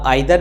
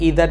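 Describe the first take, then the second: First: The first vowel sounds like 'eye'. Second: The first vowel sounds like 'ee'. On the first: "इसे आप आइदर भी बोल सकते हैं" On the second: "ईदर भी बोल सकते हैं"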